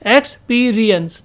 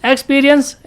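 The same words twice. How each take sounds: First: experience said slowly in separated chunks; teacher sounding out experience in parts; split into syllables. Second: Said in the usual way. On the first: Shown as a demonstration. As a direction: break experience after the first syllable, stretching the rest. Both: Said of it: "दो syllable का हो गया".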